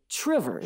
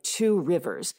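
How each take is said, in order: First: The two words merge into one short word. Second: Both words are said fully and separately. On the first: "locals might say Trivers" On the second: "it's spelled like you can imagine"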